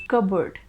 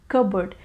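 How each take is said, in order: No difference in how they are said.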